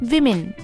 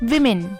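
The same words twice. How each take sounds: The two takes are said the same way.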